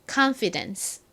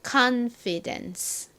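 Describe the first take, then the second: First: The word is said at a normal speed. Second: The word is said slowly and carefully.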